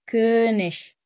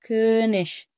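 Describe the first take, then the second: Both takes have the same delivery.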